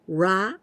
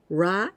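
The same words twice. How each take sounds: First: The consonant is a strong English-style R. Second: The same.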